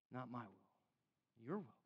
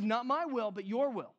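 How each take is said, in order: First: Much softer, very slow, breathy-hushed "not my will, your will"; hushed surrender. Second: Firm, steady quote with stress on "my" and "your"; firm surrender. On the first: Preacher voicing Jesus in Gethsemane, hushed and slow. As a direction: let it fall almost silent in slow surrender. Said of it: "Jesus is like". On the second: Preacher quoting Jesus to the congregation, firm and declarative. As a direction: declare "Not my will, but your will" firmly. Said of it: "Jesus says". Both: Retold or imitated.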